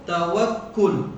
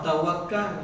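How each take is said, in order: First: The word ends with a doubled k and 'ul'. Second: The word ends with a single k and 'al'. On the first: This is the precise original form. "kena ajak cara tepat, dia kena baca dengan apa?" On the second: This is the common everyday form. "kita mudah-mudah tak sama kata apa? Tawakal"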